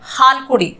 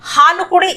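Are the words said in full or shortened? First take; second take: shortened; full. First: A vowel is dropped, making it shorter. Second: Every vowel is pronounced in full. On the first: This is how it sounds in conversation. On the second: This is the careful full form.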